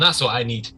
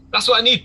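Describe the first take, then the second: First: Said in the usual way. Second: High, loud gang boss declaration; emphatic exclamation. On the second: Acted. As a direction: hammer it home to the lads. Boss repeats it emphatically to men.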